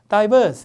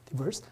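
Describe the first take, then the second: First: First syllable 'dye', with the R dropped. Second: First syllable 'dee', with a strong R sound. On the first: This is a common British pronunciation. "I로 발음하면서 R이 날아가니까 약간 diverse 이렇게" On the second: This is the usual American pronunciation. "미국 사람들은 되게 이를 이 발음할 테니까 이 발음이 diverse, R도 세게 해야 돼요"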